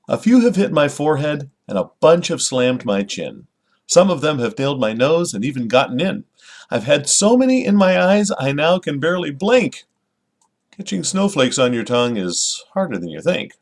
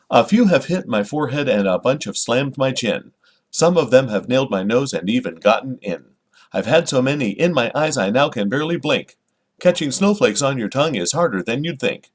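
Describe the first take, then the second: First: Lively, expressive poem recital; storytelling lilt on a children's poem; poem reading. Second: "A few have hit my forehead" read sing-song, every second syllable punched; exaggerated da-DUM metronome beat through "snowflakes on your tongue". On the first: Acted. Reads the poem naturally. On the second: Shown as a demonstration. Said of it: "read it very very noticeably, uh, on, on the beats".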